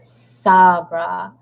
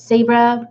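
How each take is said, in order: First: The first syllable sounds like 'saw'. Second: The first syllable sounds like 'say'. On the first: "like saw, like I saw a bra" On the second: "like say bra"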